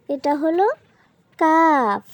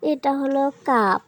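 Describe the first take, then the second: First: Pause, then land hard on "কাফ"; emphatic repeat. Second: Said in the usual way. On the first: Shown as a demonstration. ("কাফ" শব্দে জোর দিয়ে, থেমে উঁচু গলায়)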